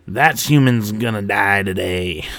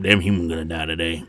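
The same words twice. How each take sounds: First: Slow, stretched-out lightly voiced grunt; a hint of creature voice, drawn out; quirping grunt. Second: Low cowboy-style alien threat; Western grunt. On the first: A narrator's reading. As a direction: draw out the taunt slowly. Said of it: "another grunt quirped". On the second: Acted. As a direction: mutter it like a Western gunslinger. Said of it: "like, a Western grunt now".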